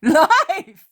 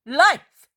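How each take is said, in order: First: Loud, high cry of Life! falling firmly at the end; cry of faith. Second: A loud, high cry of faith with a rising end. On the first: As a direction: proclaim Life! with certainty. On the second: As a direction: cry out the word Life! in total belief. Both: A narrator's reading. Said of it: "Her voice is a cry of absolute faith".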